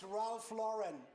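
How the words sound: The name is said with an American pronunciation. "der gute Mann ist Amerikaner. Das ist"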